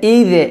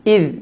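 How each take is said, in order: First: The word ends with an added vowel sound. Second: The word ends lightly on the consonant. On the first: The speaker calls it wrong. "এইগুলো করা যাবে না" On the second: The speaker calls it right. "পাতলা করে"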